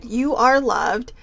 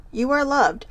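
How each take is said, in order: First: "you are loved" with a slow leaning "are" and a rise; slow, stressed are. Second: Said in the usual way. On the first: Shown as a demonstration. Rereading the card to viewers, slow and leaning on are. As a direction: read the card's "you are loved" again slowly, leaning on "are". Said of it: "So again".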